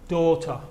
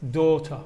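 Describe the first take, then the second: No difference in how they are said.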